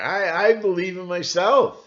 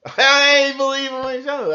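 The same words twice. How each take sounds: First: Said in the usual way. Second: Laughing, higher and louder. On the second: Real, not acted. Speaker mocking his own defiance, laughing higher. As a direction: laugh as you say it again.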